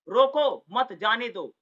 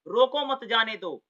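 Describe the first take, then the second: First: Loud "रोको", break, then "मत जाने दो"; very slow, stop firmly after "रोको"; negative sense, pause after रोको. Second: "रोको मत" joined, then "जाने दो"; slowly group "रोको मत" before "जाने दो"; positive sense, pause after मत. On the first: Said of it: "से नकारात्मक". ("रोको" पर विराम, नकारात्मक ध्वनि) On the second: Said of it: "से सकारात्मक ध्वनि हो रही है". ("रोको मत" साथ, सकारात्मक ध्वनि) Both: Shown as a demonstration.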